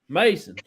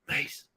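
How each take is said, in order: First: The name is said in a loud yell. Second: The name is said in a soft whisper. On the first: The speaker himself would have called out. "I would have yelled it" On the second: A voice other than the speaker's said it. "you'll hear a real whisper like Mason, like that"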